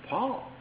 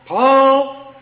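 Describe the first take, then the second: First: The name is called in a calm, ordinary tone. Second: The name is called in an irritated, impatient tone. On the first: It is simply time for supper. "I could call my boy Paul, I could say" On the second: The child took something and the caller is exasperated. "my tone is going to change"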